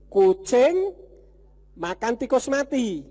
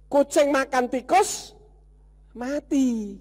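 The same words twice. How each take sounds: First: The pause comes before 'tikus'. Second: The pause comes before 'mati'.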